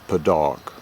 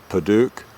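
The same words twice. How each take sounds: First: "Padauk" said the American way, second syllable like dock; American pronunciation. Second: "Paduk" said the British way, second syllable with a long oo; British pronunciation. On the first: Knife reviewer showing viewers the American way, "Padauk" ending like dock. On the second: Knife reviewer showing viewers the British way, "Paduk" with long oo. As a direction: say "Paduk" with an oo as in duke. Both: Shown as a demonstration. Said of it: "a British pronunciation and an American pronunciation".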